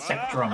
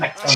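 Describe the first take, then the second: First: An R sound follows the T. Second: No R sound follows the T. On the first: The speaker calls it wrong. "He added an R basically what it was. It was not it's not Sectrum" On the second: The speaker calls it right. "It's Sectum"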